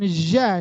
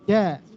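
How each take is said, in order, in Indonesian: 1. Konsonannya diucapkan dengan desis. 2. Konsonannya diucapkan tanpa desis. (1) "jangan ja, itu berdesis jadinya" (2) "Di tengah lidah"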